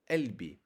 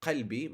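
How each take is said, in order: First: قلبي said as 'elbi, glottal stop for qaf; Egyptian-style قلبي, drop the q; qaf as hamza. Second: قلبي said with a full q sound; standard qaf. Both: Shown as a demonstration. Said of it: "pronounced as a uh, like a hamza".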